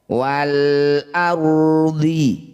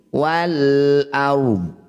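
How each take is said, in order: First: The word ends with a short i vowel. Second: The word ends on the consonant, no vowel. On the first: The reading continues without stopping. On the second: The reading stops here.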